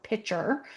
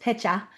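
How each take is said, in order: First: The final R is clearly pronounced. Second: The final R is dropped, Massachusetts style.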